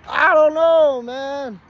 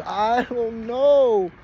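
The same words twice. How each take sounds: First: High, loud cry of bafflement; helpless outcry. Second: Very slow, high, stretched-out wail; baffled wail. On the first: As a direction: burst out high and loud, at a loss. Baffled answer, escalated. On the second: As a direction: drag each word out, high and helpless. Baffled answer to questioning. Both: Retold or imitated.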